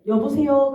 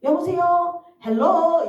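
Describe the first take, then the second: First: Short, loud, uneasy hello; old phone greeting. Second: High, loud sing-song hello; high-toned phone greeting. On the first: Retold or imitated. Answering the pastor's dreaded call, tense and abrupt. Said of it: "어떻게 전화를 받냐면은 목사님한테". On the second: Shown as a demonstration. Answering calls from pastor or mom, in a high tone. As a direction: pitch it right up and lilt the greeting. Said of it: "무조건 높은 톤으로 제가 받거든요".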